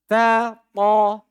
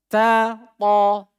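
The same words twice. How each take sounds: The two takes are said the same way.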